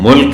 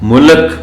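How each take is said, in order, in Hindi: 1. l और k बिना किसी स्वर के जुड़े हैं। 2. l और k के बीच एक स्वर डाला जाता है। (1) "जैसे ये मुल्क है" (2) "इसको मुल्क पढ़ दिया जाता है, वो अच्छा नहीं लगता"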